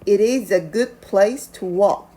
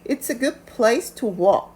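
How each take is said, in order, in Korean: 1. It is는 두 개의 온전한 단어로 말해요. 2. It is는 한 음절로 축약돼요.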